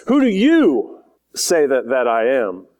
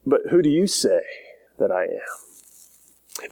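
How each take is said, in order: First: "you" drawn out and punched, the rest falling away; stress on YOU. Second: Said in the usual way. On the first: Shown as a demonstration. Jesus putting the question to his disciples, emphatic stress on "you". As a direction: lean slowly and hard on "you". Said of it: "it's extremely emphatic". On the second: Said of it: "and he asks them".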